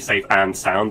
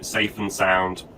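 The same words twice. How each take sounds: First: The word 'and' is fully pronounced and stressed. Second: The word 'and' is reduced to a light 'n'. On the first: The speaker calls it wrong. "We don't need to say safe and sound, that's too much emphasis" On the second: The speaker calls it right. "So safe and sound is how we can say that"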